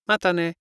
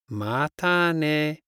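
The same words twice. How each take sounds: First: Said in the usual way. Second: Slow. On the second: Shown as a demonstration. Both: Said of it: "See you later".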